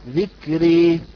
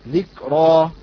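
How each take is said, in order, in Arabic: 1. الحركة الأخيرة تميل تمامًا نحو الكسرة. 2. الحركة الأخيرة فتحة مفتوحة. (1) "وبالإمالة" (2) "إذا قرأنا كلمة ذكرى مثلا بالفتح"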